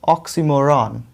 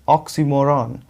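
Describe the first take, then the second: No difference in how they are said.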